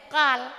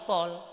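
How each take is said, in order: First: The vowel sounds like an open 'a'. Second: The vowel sounds like a rounded 'o'. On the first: The speaker calls it right. "padahal kal" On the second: The speaker calls it wrong. "logat lidah"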